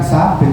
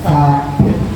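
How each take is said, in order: First: The name begins with an s sound. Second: The name begins with a th sound. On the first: The speaker calls it wrong. "bukan Sabit Ustadz" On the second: The speaker calls it right.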